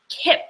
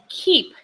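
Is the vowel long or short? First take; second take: short; long. First: The vowel is a short lax i. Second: The vowel is a long tense ee. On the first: The speaker calls it wrong. "they will keep it at kip" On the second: The speaker calls it right. "instead of saying keep"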